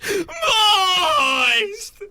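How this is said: The word is screamed in panic.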